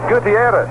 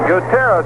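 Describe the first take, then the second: First: The name is said with an I sound. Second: The name is said without an I sound. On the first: This is how the player himself says it. "He would pronounce it Gutierrez with the I" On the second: This is how the broadcasters say it. "we're calling him"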